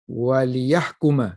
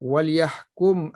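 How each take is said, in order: First: The l takes i, and the word ends in ma. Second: The l is vowelless, and the word ends in m. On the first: It gives a reason: so that they judge. "wa man kasara lama" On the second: It is a command that they should judge. "pada mereka yang membacanya dengan sukun lam"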